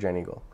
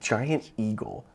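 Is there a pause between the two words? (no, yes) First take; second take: no; yes. First: The two words run together without a gap. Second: There is a gap between the two words. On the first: The speaker calls it right. "Like there's no space" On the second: The speaker calls it wrong. "like a big old like kind of like a space between the words"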